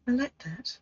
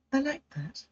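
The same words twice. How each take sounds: The two takes are said the same way.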